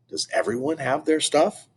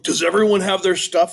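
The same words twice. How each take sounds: First: It is said in a calm, normal voice. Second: It is yelled loudly and excitedly.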